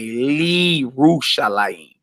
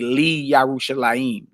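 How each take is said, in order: First: The 'ye' merges into 'li', giving 'li-ru'. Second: A full 'ye' syllable follows 'li'. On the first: The speaker calls it right. "You would say" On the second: The speaker calls it wrong. "You wouldn't say"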